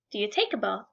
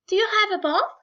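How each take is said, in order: First: "Do you take a bath?" dropped low and soft; plain middle-class take on "Do you take a bath?"; middle-class phrasing. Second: "Do you have a bath?" raised high like a posh speaker; mock upper-class asking "Do you have a bath?"; upper-class phrasing. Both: Shown as a demonstration. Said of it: "the U and the non-U".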